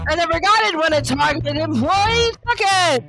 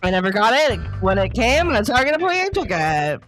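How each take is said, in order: First: It is said like a game show host. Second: It is said like a breaking news anchor.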